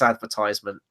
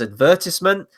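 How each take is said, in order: First: It is said the American way, like advertise. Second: It is said the British way. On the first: The speaker calls it right. "I will break even with you there" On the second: The speaker calls it wrong. "the classic British way of saying advertisement"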